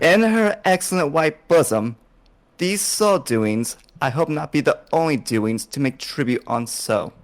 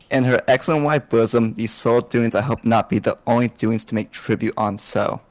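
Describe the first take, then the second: First: It is read very slowly. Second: It is read at normal speed.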